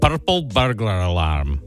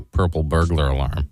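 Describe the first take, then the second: First: It is said in a put-on Scottish accent. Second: It is said in a plain, non-Scottish accent. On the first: "So if I said it in a Scottish accent" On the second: "I can say purple burglar alarm"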